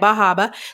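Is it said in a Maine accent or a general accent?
Maine accent. It is said in a local Maine accent.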